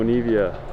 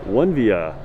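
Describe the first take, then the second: First: The name starts with an 'oh-nee' sound. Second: The name starts with a 'won' sound. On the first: The speaker calls it wrong. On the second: The speaker calls it right.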